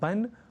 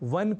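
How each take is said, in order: First: The word begins with a b sound. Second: The word begins with a v sound. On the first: The speaker calls it wrong. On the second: The speaker calls it right.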